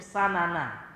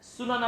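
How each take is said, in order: First: The first vowel is an a sound. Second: The first vowel is an u sound. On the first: "dan boleh juga difathahkan sin, yaitu sanana" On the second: "dengan didomahkan sinnya"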